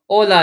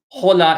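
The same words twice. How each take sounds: First: The word starts with a vowel, no H sound. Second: The word starts with an audible H sound. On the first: The speaker calls it right. "we don't pronounce the H. Hola is correct" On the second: The speaker calls it wrong. "hola is wrong"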